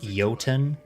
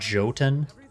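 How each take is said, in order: First: The word begins with a Y sound. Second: The word begins with a J sound. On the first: The speaker calls it right. "isn't that J pronounced as a Y? Like isn't it Jotun" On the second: The speaker calls it wrong. "not Jotun"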